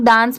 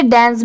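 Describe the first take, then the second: First: डांस with a long "aa", as "daans"; डांस as many people say it, "daans"; common pronunciation. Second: डांस with an "e" vowel, as "dens"; डांस pronounced "dens", not "daans"; alternative pronunciation. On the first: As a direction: say डांस with an open "aa" vowel. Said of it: "बहुत सारे लोग डांस pronounce करते हैं". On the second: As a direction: say डांस as "dance" with a front vowel. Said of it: "आप इसे डांस भी पढ़ सकते हैं". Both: Shown as a demonstration.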